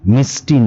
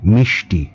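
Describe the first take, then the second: First: The middle hissing sound is like 's'. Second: The middle hissing sound is like 'sh'. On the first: The speaker calls it wrong. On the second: The speaker calls it right.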